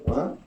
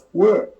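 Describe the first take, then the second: First: A raised, questioning What?; mild surprise. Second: High, loud startled What?; shouted disbelief. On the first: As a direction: ask it lightly, puzzled. Told sergeant wants to see. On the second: Told again, disbelief. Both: Retold or imitated.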